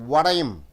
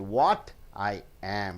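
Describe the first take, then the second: First: The words are run together into one sound. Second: Each word is said separately and fully. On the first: The speaker calls it right. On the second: The speaker calls it wrong. "You don't say"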